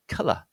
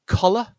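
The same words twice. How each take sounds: First: "colour" with stressed short uh, falling; short uh vowel. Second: "collar" high and loud, with an open short O, rising; open O vowel. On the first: Teacher introducing colour against collar, "colour" with uh vowel. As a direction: say "colour" with uh as in cut, then schwa. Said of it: "that sound is an uh sound". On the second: Teacher introducing collar against colour, "collar" with open O. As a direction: say "collar" with a stressed O, then schwa. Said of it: "and this is pronounced collar". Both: Shown as a demonstration.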